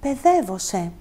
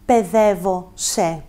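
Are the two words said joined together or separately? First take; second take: joined; separately. First: The two words are said joined as one. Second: The two words are said separately, apart. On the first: The speaker calls it right. "Θα πω" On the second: The speaker calls it wrong. "Δεν θα πω"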